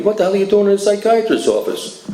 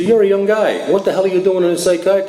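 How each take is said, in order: First: Higher, blunt doctor's voice with a changed timbre; doctor bluntly grilling a young patient, imitated higher. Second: Higher, blunt doctor's voice, a bit fast; doctor bluntly grilling a young drinker, higher and quick. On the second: Retold or imitated. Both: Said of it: "This is the way he talked to me".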